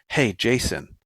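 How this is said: It is said in a harsh, hostile tone.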